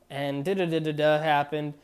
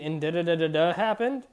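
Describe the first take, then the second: First: The voice falls at the end. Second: The voice rises at the end.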